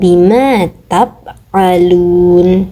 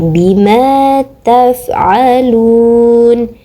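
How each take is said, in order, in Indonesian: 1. Konsonan sebelum 'alun' itu bunyi p. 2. Konsonan sebelum 'alun' itu bunyi f. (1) "bukan P dibaca tap, bukan tap"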